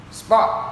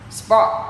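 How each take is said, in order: The two takes are said the same way.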